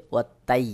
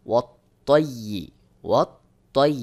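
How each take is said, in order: First: Light t in "ওয়াত তাই", vowel an open "ai"; common mispronunciation. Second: Heavy Arabic ط in "ওয়াত তৈ", rounded "toi"; correct pronunciation. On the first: Teacher shows what many say, "ওয়াত তাই" with light t. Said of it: "অনেকে এখানে উচ্চারণ করে". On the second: Teacher demonstrates "ওয়াত তৈ" with full heavy ط. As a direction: stress a thick, emphatic t in "ওয়াত তৈ". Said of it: "সহি উচ্চারণ হলো". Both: Shown as a demonstration.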